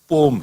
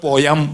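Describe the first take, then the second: First: The word is said with one syllable. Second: The word is said with two syllables. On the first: This is the correct English pronunciation. The speaker calls it right. "पोयम और पोएम नहीं है, पोम है" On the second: This is how Gujarati speakers say it. The speaker calls it wrong. "Gujarati में पोयम बोलते हैं"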